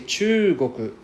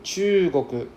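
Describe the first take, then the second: Both takes have the same delivery.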